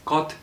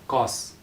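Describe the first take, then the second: First: The syllable ends with a t sound. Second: The syllable ends with an s sound. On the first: The speaker calls it right. "this syllable is pronounced as got" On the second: The speaker calls it wrong. "not as gos"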